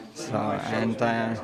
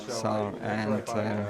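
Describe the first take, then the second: No difference in how they are said.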